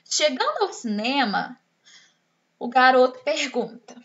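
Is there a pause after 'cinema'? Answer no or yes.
yes. There is a breath pause after 'cinema'. The speaker calls it right. "na primeira frase a tia Aline deu uma pausa. Eu dei uma respirada"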